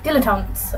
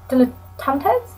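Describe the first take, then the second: First: Dilettantes said lower with a final fall; settled pronunciation. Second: Dilettantes? tried slowly with a questioning rise; unsure pronunciation. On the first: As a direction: commit to Dilettantes with a falling close. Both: Shown as a demonstration. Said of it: "I can't tell if that's right".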